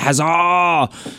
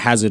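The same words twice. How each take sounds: First: The stress falls on the final syllable. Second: The stress falls on the first syllable. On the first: "He's putting the emphasis on the silent D" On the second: "I've been calling it Hazard all year"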